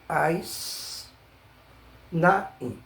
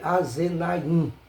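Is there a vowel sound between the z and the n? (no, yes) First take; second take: no; yes. First: No vowel follows the z sound. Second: A short vowel follows the z sound. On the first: The speaker calls it right. "e sim as" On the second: The speaker calls it wrong. "eu não vou ler a z na in"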